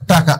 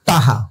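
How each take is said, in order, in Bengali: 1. মাঝের ব্যঞ্জনটি পরিষ্কার ক ধ্বনি। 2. মাঝের ব্যঞ্জনটি নরম হয়ে হ হয়ে যায়।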